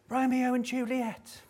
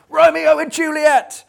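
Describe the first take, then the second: First: Put-on high, soft little-girl voice, much higher pitch; piping like a shy seven-year-old. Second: Put-on very high, loud child's yell; little girl yelling. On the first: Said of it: "in her little seven-year-old girly voice". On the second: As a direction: shout it over the crowd like a brave little girl. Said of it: "courage to yell ... at the top of her voice".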